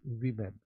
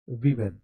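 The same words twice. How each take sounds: First: वीमेन repeated as "vee-men", long ee; pronunciation women. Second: वीमेन said as "vee-men", first vowel long ee; pronunciation women. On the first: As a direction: model वीमेन again with ee sound. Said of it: "तो इसको क्या पढ़िएगा". (वीमेन दोबारा "वी-मेन", लंबी ई) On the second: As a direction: say वीमेन with a long ee, not "woe". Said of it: "आपको ऐसे करना है". (वीमेन का उच्चारण "वी-मेन", लंबी ई) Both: Shown as a demonstration.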